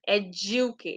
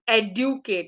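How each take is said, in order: First: The middle consonant is a J sound. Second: The middle consonant is a plain D sound. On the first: The speaker calls it right. "No, it's educate. J" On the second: The speaker calls it wrong. "people have been saying this"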